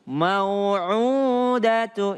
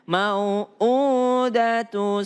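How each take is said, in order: First: The middle consonant is a connected pharyngeal sound. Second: The middle consonant is a separated glottal stop. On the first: The speaker calls it wrong. "Ini kalau ain" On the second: The speaker calls it right. "Bukan ain"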